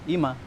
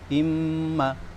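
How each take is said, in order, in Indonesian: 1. Huruf m pendek, tanpa dengung. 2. Huruf m ditahan panjang dengan dengung. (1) "harusnya gunnah malah dia enggak gunnah" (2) "Harusnya kan imma"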